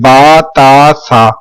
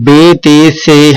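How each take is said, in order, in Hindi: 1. अक्षरों के नाम 'a' स्वर पर खत्म होते हैं। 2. अक्षरों के नाम 'e' स्वर पर खत्म होते हैं। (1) "बल्कि क्या पढ़ेंगे" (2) "ये सारा कुछ उर्दू लहजा है"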